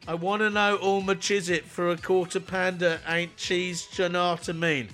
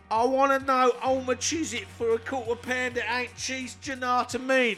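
First: It is read out in the speaker's normal voice. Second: It is said in an imitated Cockney accent. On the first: "just reading it out" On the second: "I've got to do it now. In your best Cockney accent"

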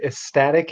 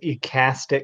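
First: The word has an 's' sound after 'ec'. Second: The word has no 's' sound after 'ec'. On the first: The speaker calls it right. "I pronounced the word ecstatic" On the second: The speaker calls it wrong. "as ecastic because I learned it from Zelda"

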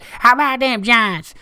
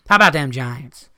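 First: It is said in a Texan Southern drawl. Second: It is said in the speaker's normal accent. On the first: The speaker calls it right. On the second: The speaker calls it wrong.

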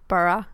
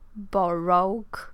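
First: It is said with its short local pronunciation. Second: It is said the way its letters look. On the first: "det uttalas ju typ Borough" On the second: "det stavas ju liksom Borough"

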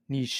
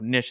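First: The word is said in a fancy-sounding way. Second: The word is said in a casual-sounding way. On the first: It suits a fancy subject. "If it's wearing a top hat, niche is probably appropriate" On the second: It suits a casual subject. "if it's just got a beanie on, ... niche is fine. ... Casual"

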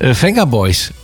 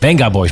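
First: The first word begins with a V sound. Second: The first word begins with a B sound. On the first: The speaker calls it wrong. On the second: The speaker calls it right.

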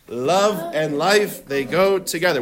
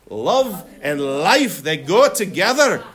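First: It is said in the speaker's usual accent. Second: It is said in a Scottish accent.

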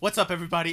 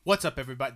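First: It is said with high energy. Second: It is said with low energy.

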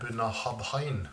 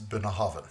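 First: The ending is read letter by letter as 'habhain'. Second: The ending sounds like 'haven', with a v sound. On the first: This is the name read straight from the spelling. "hvis du skal lese det rett frem, så blir det Bunnehabhain" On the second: This is how the name is actually pronounced. "Det uttales Bunnehaven"

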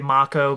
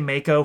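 First: Mako is pronounced in the Japanese way. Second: Mako is pronounced in an anglicized English way. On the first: This is the proper original pronunciation. "they say Mako because they're using the proper Japanese pronunciation" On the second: This is the habitual pronunciation from childhood. "I will say Mako forever"

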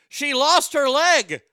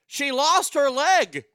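Both takes have the same delivery.

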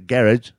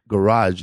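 First: It is said in a British accent. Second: It is said in an American accent. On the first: The speaker calls it right. "You gotta say garage" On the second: The speaker calls it wrong. "you can't really say garage"

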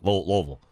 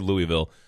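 First: The word is slurred together and mumbled. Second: Each syllable of the word is pronounced clearly. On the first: This is how the locals say the name. The speaker calls it right. "just put a bag of marbles in your mouth" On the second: This is how outsiders say the name. The speaker calls it wrong. "which is not how the locals pronounce it"

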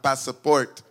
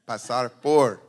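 First: The two words are run together as one. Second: The two words are kept clearly separate. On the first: The speaker calls it wrong. "Not pasaport" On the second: The speaker calls it right.

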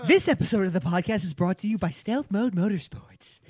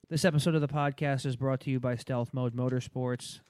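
First: It is read with interested enthusiasm. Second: It is read in a flat monotone.

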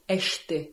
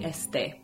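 First: It is said with a Portugal pronunciation. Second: It is said with a Spanish pronunciation. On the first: "the Portugal pronunciation would be este" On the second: "which in Spanish would be este"

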